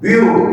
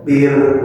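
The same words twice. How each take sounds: First: "Biru" with an extra u added at the end; wrong pronunciation. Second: "bir" closed crisply on the r with no vowel after; correct pronunciation. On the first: Teacher showing students the mistaken "Biru" ending. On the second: Teacher showing students the correct "bir" ending. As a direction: stop cleanly on the r in "bir". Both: Shown as a demonstration. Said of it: "ulah biru".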